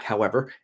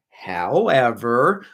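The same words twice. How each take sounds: First: Said in the usual way. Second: A playful long "howeeever" before the point; slow drawn-out however. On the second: Real, not acted. Streamer teasing the chat with a slow, rising "however". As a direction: stretch "however" out slowly, rising at the end. Repeated word, second stretched.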